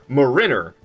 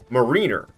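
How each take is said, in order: First: The middle syllable sounds like 'in'. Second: The middle syllable sounds like 'een'. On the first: The speaker calls it right. "changes the pronunciation of marine to marin" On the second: The speaker calls it wrong.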